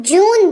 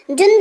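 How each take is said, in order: First: जून with a long, stressed oo; correct long vowel. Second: जुन said with a short u, the wrong way; wrong short vowel. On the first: Teacher models the right जून, long oo. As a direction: stretch and lean on the oo in जून. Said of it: "जोर पड़ता है उस जगह पर". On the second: Teacher shows the wrong reading जुन, short u. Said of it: "जुन तो नहीं बोलते हैं". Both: Shown as a demonstration.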